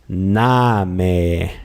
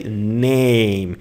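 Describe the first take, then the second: First: The vowel is an open 'ah' sound. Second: The vowel is an 'ay' sound, as in English. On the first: The speaker calls it right. "You pronounce it with open mouth" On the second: The speaker calls it wrong. "You don't say name"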